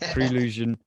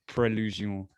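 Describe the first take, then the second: First: It is pronounced with a plain English accent. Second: It is pronounced with a French accent.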